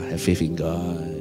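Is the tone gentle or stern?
gentle. It is said gently and casually.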